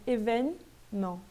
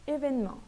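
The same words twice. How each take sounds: First: "Événement" slowly split as é-vèn, ment; middle E dropped, split. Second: "Événement" joined up as évèn-ment; middle E dropped. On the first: Teacher showing the ignored E, slow syllables. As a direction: break "Événement" after the n, skipping middle E. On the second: Teacher repeating the whole word, middle E silent. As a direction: say "Événement" in one go, skipping middle E. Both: Shown as a demonstration. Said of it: "praticamente eu ignoro ele".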